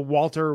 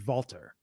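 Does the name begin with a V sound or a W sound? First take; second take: W sound; V sound. First: The name begins with a W sound. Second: The name begins with a V sound. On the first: The speaker calls it wrong. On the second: The speaker calls it right.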